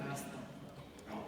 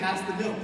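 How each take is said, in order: First: It is said with a hostile, resentful undertone. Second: It is said in a plain, neutral tone.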